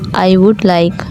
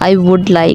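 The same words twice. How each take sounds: First: It is spoken slowly. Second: It is spoken at a normal speed.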